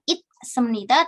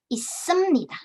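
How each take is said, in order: First: A clear t sound ends the first syllable. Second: The first syllable links into a doubled s. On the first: The speaker calls it wrong. "bukan it semnita" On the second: The speaker calls it right. "dia melebur ke sebelah"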